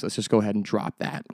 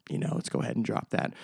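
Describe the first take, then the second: First: Said in the usual way. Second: Breathy whisper, much softer; whispered repeat of the complaint; whispered aside. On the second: Pretend. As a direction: mutter it to yourself under your breath.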